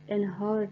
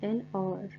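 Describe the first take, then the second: First: The second word begins with an h sound. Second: The second word begins with a vowel sound. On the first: The speaker calls it wrong. "नहीं है" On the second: The speaker calls it right. "वावल sound दे रहा है"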